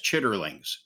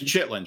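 First: The word is said in full, chitterlings. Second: The word is shortened to chitlins. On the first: This is the formal, proper form. "the proper pronunciation of that is chitterlings" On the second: This is how people actually call it. "But it's chitlins"

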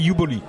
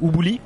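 First: The name is pronounced with English sounds. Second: The name is pronounced with French sounds. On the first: "en anglais, c'est Uboli" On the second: "En français, on va dire"

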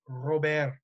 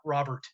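First: The name is pronounced the Spanish way. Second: The name is pronounced the English way. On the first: The speaker calls it right. "I assure you that it is Louis Robert" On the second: The speaker calls it wrong. "not Robert"

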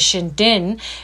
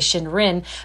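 First: The word is said with Japanese pronunciation. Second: The word is read with English pronunciation. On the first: "the way they pronounce it is" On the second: "if we read it as English people, we would say"

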